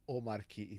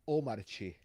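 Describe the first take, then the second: First: The middle consonant is a hard k sound. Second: The middle consonant is a ch sound. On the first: The speaker calls it wrong. "it's not Omarki" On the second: The speaker calls it right. "it's Omarchi"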